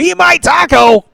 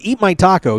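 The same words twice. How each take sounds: First: It is screamed even louder. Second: It is said at normal volume. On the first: "scream it louder as you go" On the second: "you start with"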